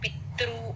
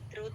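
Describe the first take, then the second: First: The word is said with heavy stress. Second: The word is said lightly, without force. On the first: The speaker calls it wrong. "పితృ అని అలా stress రాకూడదు" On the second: The speaker calls it right. "పితృ తేలిగ్గా చెప్పాలి"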